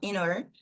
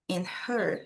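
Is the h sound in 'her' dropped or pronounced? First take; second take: dropped; pronounced. First: The h is dropped, linking into 'inner'. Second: The h in 'her' is breathed out clearly. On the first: "a gente tira esse som da garganta. Fala só o er" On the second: "Aqui a gente tem o som do H no inglês"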